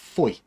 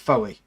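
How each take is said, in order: First: The name is said with one syllable. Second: The name is said with two syllables. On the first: The speaker calls it right. "but it's actually called Foy" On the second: The speaker calls it wrong. "which you'd think would be Foey"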